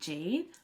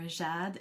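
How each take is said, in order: First: The name is pronounced the English way. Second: The name is pronounced the French way.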